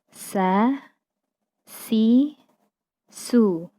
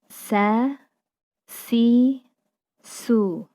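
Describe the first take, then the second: No difference in how they are said.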